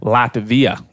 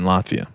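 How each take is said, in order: First: The consonant after the t sounds like v. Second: The consonant after the t sounds like f. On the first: The speaker calls it right. "there you go" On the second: The speaker calls it wrong. "it sounds like there's an F when you pronounce Latvia"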